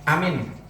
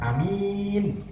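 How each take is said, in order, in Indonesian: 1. Hanya vokal pertama yang dibaca panjang. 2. Hanya vokal kedua yang dibaca panjang. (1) "a-nya panjang tapi min-nya pendek" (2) "a-nya pendek tapi min-nya panjang"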